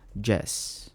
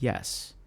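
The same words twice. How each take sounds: First: It begins with a J sound, Spanish-accented. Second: It begins with a Y sound, American English.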